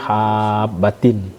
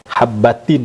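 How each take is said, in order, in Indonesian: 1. Vokalnya dibaca panjang. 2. Vokalnya pendek, tanpa pemanjangan. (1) "seolah-olah seperti mad lazim musakkal kalimi" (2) "tanda mat pun tidak ada di situ"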